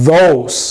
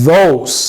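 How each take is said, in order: Both takes have the same delivery.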